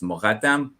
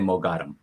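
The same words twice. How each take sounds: First: The middle consonant is a throaty gh sound. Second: The middle consonant is a plain hard g. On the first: This is the authentic Iranian pronunciation. The speaker calls it right. "the real pronunciation is Mogadam" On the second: This is the common mispronunciation. The speaker calls it wrong. "most people will say Mogadam"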